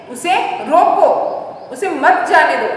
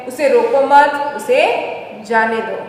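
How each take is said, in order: First: उसे रोको as one phrase, break, then उसे मत जाने दो; pause after रोको. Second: उसे रोको मत as one phrase, break, then उसे जाने दो; pause after मत. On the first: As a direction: explain by separating रोको from मत जाने दो. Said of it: "मतलब कोई व्यक्ति है". (रोको के बाद रुककर समझाना) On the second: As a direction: explain by keeping मत with रोको. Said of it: "मतलब जो कोई व्यक्ति है". (मत के बाद रुककर समझाना) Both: Shown as a demonstration.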